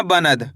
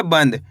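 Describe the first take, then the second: First: "बनद" said ba-nad, with a full न; full-n mispronunciation. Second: "बंद" as one syllable, the n passed over quickly into d; quick half-n. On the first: Teacher repeating the wrong reading to students, "बनद" with a full न. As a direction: give "बनद" a separate "na" syllable. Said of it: "ऐसे नहीं पढ़ना". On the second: Teacher correcting the reading, "बंद" with a quick half न. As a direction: say "बंद" as band, with only a half न. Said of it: "ना का उच्चारण तेजी के साथ निकालना है". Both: Shown as a demonstration.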